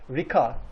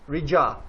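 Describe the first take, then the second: First: It begins with a K sound. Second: It begins with a J sound. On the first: The speaker calls it wrong. "the most common mistake for from the uh, foreign speakers is that Rika" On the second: The speaker calls it right. "it is J sound"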